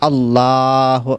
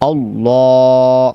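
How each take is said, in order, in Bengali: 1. L পাতলা ও হালকাভাবে উচ্চারিত হয়। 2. L মোটা ও ভরাটভাবে উচ্চারিত হয়। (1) "তাহলে পরিপূর্ণ শুদ্ধ হবে না" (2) "মুখকে বড় করে মোটা করে ফুর করে পড়তে হবে"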